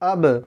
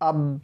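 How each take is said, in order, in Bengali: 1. শেষের b প্রতিধ্বনির ঝাঁকি দিয়ে ছেড়ে দেওয়া হয়। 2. শেষের b সোজা থেমে যায়, কোনো প্রতিধ্বনি থাকে না। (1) "আপনাকে বলতে হবে" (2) "এরকম বললে কিন্তু ভুল হবে।"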